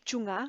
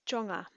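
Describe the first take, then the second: First: The first vowel sounds like u. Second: The first vowel sounds like o. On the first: The speaker calls it wrong. "We don't say chunga" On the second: The speaker calls it right. "So chonga"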